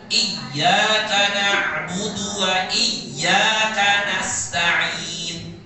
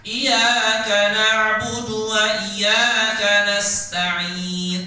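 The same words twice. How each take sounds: First: Iyyaka said very slowly with the yy held and pressed; pressed tasydid. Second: Iyyaka with a single light y, not pressed, very slow; without tasydid. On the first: Teacher showing class the right tasydid, pressed and slow. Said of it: "cara bacanya harus ditekan, ditekan bacanya". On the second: Teacher showing class the wrong unpressed reading. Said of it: "Tapi kalau tidak ditekan". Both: Shown as a demonstration.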